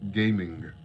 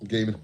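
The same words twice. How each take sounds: First: It is said in posh, carefully enunciated English. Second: It is said casually in his normal accent.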